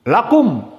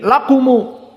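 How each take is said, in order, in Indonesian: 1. Kata ini berakhir dengan bunyi m. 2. Kata ini berakhir dengan tambahan vokal u.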